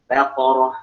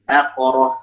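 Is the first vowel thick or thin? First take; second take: thin; thin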